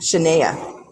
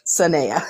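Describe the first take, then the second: First: The name begins with a 'sh' sound. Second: The name begins with an 's' sound. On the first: The speaker calls it wrong. "Like Shania without the H" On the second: The speaker calls it right. "without the H, she said"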